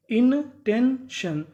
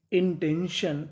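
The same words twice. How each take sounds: First: 1 slow stretched word. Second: Said in the usual way. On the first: Shown as a demonstration. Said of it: "teacher stretches word for students". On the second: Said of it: "teacher says the new word".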